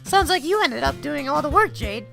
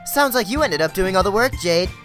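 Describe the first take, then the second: First: It is said in a put-on character voice. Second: It is said in the speaker's normal voice.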